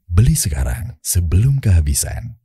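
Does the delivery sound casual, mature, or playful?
mature. It is said in a calm, mature, confident tone. It advertises a product for mature adults. "iPhone ini mature lah ya"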